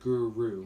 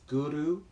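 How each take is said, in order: First: The R is plain and not rolled. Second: The R is rolled with the tongue tip. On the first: The speaker calls it wrong. "which most people pronounce it like that" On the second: The speaker calls it right. "the R rolled a bit"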